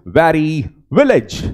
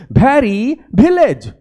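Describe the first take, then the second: First: Teacher models वेरी विलेज slowly with rounded lips; correct w sounds. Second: वेरी विलेज said as bheri bilej with a hard b; mock the common mistake, वेरी विलेज with b; wrong pronunciation. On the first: Teacher shows students the right way, slow careful w. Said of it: "सबसे पहले तो व का उच्चारण देखो". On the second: Teacher imitates students' mistake, hard b for w. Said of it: "गलत करें". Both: Shown as a demonstration.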